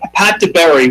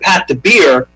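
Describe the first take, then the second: First: The surname ends like the word berry. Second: The surname ends like the word beer. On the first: The speaker calls it right. "which is how I assumed it was pronounced and how I've been pronouncing it" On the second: The speaker calls it wrong. "I've also heard"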